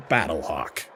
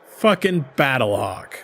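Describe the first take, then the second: First: Name said low and flat, as the character; deep mock name. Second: Fucking stressed, slower and louder before Battlehawk; scoffing emphasis. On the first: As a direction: intone Battlehawk low and solemn. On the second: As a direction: hit Fucking hard, drag out Battlehawk. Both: Shown as a demonstration.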